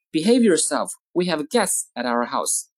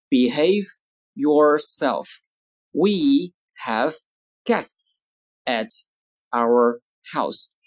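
First: Said in the usual way. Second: Slow, isolated words with clear pauses; word-by-word model. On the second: Shown as a demonstration. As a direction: dictate slowly to language learners. Teacher models sentences word by word.

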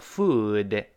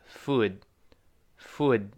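First: "Food" drawn out with the final d released as duh; long "Food" ending in an audible d; slow full-release reading. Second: Short "food" with the final d held back; "food" cut short on a silent d; fast-speech unreleased d. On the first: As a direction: say "Food" slowly, sounding the d fully. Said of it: "慢慢读". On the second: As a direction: stop the d of "food" on the tongue, no release. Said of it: "读快了". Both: Shown as a demonstration.

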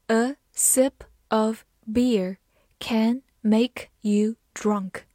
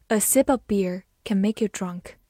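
First: Word by word, with gaps; very slow teaching read, each word separate; slow model reading. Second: Said in the usual way. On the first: Shown as a demonstration. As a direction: read it slowly for learners to follow. Teacher reading the sentence slowly for learners.

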